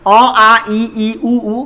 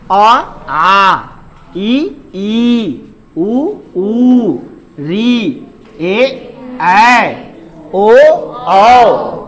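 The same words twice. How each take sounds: First: अ, आ, ई, ई, उ, ऊ recited with long vowels cut as short as short ones; wrong vowel reading. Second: Short अ, then आ drawn out twice as long, likewise each pair; double-length long vowels. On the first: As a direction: read "अ, आ, ई, ई, उ, ऊ" evenly, no doubled length. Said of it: "गलत पढ़ते हैं". ("अ, आ, ई, ई, उ, ऊ" सब बराबर लंबाई में, गलत ढंग से) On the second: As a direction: recite vowels slowly, holding आ, ऊ, औ for double time. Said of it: "double समय दीजिए उस पे". ("आ", "ऊ", "औ" जैसे दीर्घ स्वर दोगुना खींचकर) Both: Shown as a demonstration.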